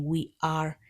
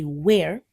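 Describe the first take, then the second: First: It is said as two full syllables. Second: It is said as one short syllable. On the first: The speaker calls it wrong. "Some people say we are, even though they should read it as the short form. Don't do this" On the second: The speaker calls it right. "For the contracted form of we are, we say where"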